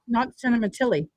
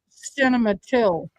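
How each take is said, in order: First: The name ends on an 'ee' vowel. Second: The name ends on an 'l' consonant. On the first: This is how the speaker usually says the name. "calling him Cinema Tilly" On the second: This is how the witness says the name. "He's calling him Cematil"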